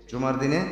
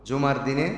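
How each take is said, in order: The two takes are said the same way.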